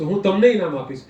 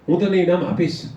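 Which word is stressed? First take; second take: તમને; આપીશ. First: The stress falls on the second word. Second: The stress falls on the last word. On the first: It answers who will receive the prize. "તમે કોને ઇનામ આપશો" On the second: It answers whether the prize will be given. "તમે મને ઇનામ આપશો"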